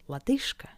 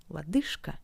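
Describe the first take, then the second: First: The consonant before K is a voiceless sh. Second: The same.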